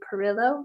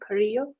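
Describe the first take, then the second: First: The name is said with an English accent. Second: The name is said with a Spanish accent.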